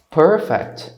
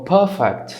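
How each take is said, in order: First: PERFECT with a pronounced R; r-coloured first vowel in PERFECT; accent variant with R. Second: PERFECT with the R dropped; r-less first vowel in PERFECT; accent variant without R. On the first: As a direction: sound the R in the first syllable of PERFECT. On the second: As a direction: say PERFECT as "puh-fect", no R. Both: Shown as a demonstration. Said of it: "depende de qual sotaque".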